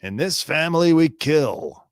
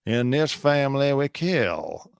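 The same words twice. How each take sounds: First: First take higher and louder, declaring the family creed; menacing family creed. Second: Quieter menacing creed. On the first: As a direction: announce it like a proud threat. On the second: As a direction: let it sink in, darker. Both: Pretend. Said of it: "Or was it all about Stephen Smith?".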